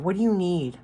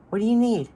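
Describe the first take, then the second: First: Said in the usual way. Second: "What do you need?" raised and louder, leaning on "you"; emphatic repeat. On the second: Shown as a demonstration. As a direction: push the repeat up and out, stressing "you". Repeats the key question, emphasized.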